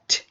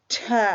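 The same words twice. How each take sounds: First: The consonant is short, with no vowel after. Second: The consonant ends with an added 'uh' vowel. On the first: The speaker calls it right. "without a schwa at the end of it" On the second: The speaker calls it wrong. "if we were swearing the word cat, it would be pronounced as"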